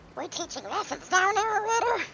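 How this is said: It is read in a put-on character voice. The speaker calls it right. "I know how I should do this voice"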